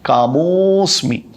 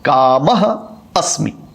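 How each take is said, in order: First: The two words are fused into one. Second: The two words are said separately.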